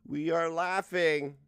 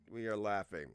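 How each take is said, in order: First: Slow, loud, deliberate announcement; slowly declared, louder than usual; drawn-out declaration. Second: Said in the usual way. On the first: Acted. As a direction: stretch each word out loudly. Quoting own laughing, drawn out.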